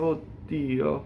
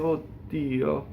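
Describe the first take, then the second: First: There is a very short gap between words. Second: There is a very short gap between words.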